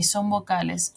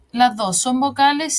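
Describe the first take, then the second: First: "son vocales" lower and softer, falling away; answering. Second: "las dos son vocales" held up as a question. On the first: Teacher confirming the answer for the class, answering. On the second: Teacher asking the class about both letters, questioning. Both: Shown as a demonstration.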